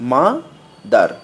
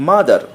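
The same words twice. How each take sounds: First: মা and দার with a pause between; broken into syllables. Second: Said in the usual way. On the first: Shown as a demonstration. Teacher showing two syllables, মা ... দার said separately. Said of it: "ভেঙে ভেঙে উচ্চারণ করতে হয়". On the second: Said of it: "একটানে উচ্চারণ".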